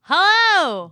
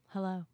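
First: The greeting is loud and full of energy. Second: The greeting is flat and low in energy. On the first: The speaker is eager to be here. "I'm bringing enthusiasm" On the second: The speaker does not care about being here. "So much enthusiasm. Could you at least act like you cared?"

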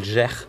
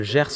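First: The final s is silent. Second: The final s is pronounced. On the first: "on dit le Gers" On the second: "on dit pas le Gers"

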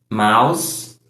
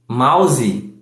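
First: It is said with an English accent. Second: It is said with a Brazilian Portuguese accent.

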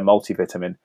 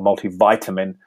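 First: It is said with a British pronunciation. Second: It is said with an American pronunciation.

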